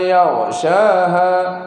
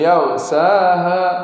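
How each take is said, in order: First: The middle consonant is an 'sh' sound. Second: The middle consonant is an 's' sound. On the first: The speaker calls it right. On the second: The speaker calls it wrong.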